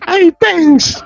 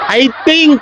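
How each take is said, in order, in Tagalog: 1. Parang 'thanks' ang pangalawang salita. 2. Parang 'think' ang pangalawang salita.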